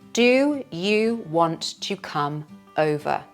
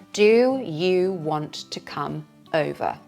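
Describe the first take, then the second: The two takes are said the same way.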